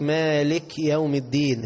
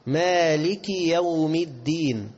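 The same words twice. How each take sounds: First: "مالك" with the final kaf left vowelless; common mistake. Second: Slow "مالك" ending in a clear ki; correct kasra. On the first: Retold or imitated. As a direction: say "مالك" quicker, ending on a bare k. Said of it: "كتير من الناس يقول لك". (نطق «مالك» بتسكين الكاف خطأً) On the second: Shown as a demonstration. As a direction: recite "مالك" drawn out, kaf with kasra. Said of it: "هي مالكي، الكاف مكسور". (ترتيل «مالك» بكسر الكاف)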